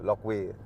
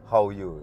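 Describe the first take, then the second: First: The name is read as spelled, 'Lokwi'. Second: The name is said as 'How You'. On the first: This is how the written name tag reads. "Kalau saya baca di name tag-nya itu L O apa dulu Lokwi gitu" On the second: This is how the person says the name. "Tapi nyebutnya How You gitu"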